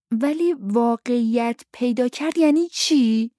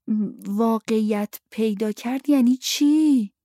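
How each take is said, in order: First: Put-on higher-pitched child pressing the question; insistent child. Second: Put-on slow, higher child's voice struggling over the phrase; labored child's question. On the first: Luke presses the grown-ups for an answer, insistent. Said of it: "لوک اصرار کرد". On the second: Luke struggles to say his father's phrase, labored. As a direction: sound out the hard phrase slowly, like a child. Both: A narrator's reading.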